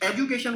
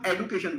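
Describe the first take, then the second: First: The middle consonant is a soft 'j' sound. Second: The middle consonant is a hard 'd' sound. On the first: This is the older British way. "British English में शेड्यूल और एजुकेशन बोला जाता था" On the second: This is the newer American way. "American English पर shift कर रहे हैं"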